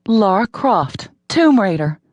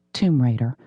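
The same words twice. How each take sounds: First: Slower, higher and louder, triumphant; heroic flourish. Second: Said in the usual way. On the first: A narrator's reading. Heroine feels like Lara Croft, triumphant slow flourish. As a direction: savor the name like a proud action hero. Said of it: "She felt like".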